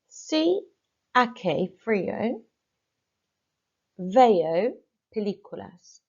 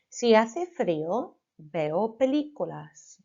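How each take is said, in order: First: Two words are pronounced with altered sounds. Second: Every word is pronounced in standard Spanish. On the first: The speaker calls it wrong. "incorrectly this time" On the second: The speaker calls it right. "The first time I say it, it's going to be absolutely correct"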